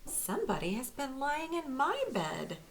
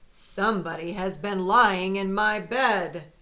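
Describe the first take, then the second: First: It is said in a middle-sized voice. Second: It is said in a great big voice.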